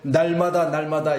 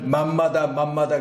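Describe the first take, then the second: First: The words begin with an 'n' sound. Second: The words begin with an 'm' sound. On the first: The speaker calls it right. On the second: The speaker calls it wrong.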